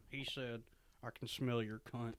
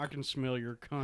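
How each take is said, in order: First: Jodie Foster impression. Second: Soft Jodie Foster voice, out of the mouth corner. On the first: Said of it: "That's a good Jodie Foster". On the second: Shown as a demonstration. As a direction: talk from the mouth corner, a bit softer. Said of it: "talk out of the side of your mouth".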